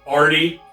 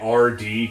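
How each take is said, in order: First: It is said as the single name Artie. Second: It is said as the two letters R D. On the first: The speaker calls it wrong. "like A R T I E" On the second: The speaker calls it right. "can't be bothered to say R D Crowley"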